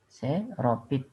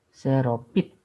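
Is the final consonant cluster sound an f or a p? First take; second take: p; p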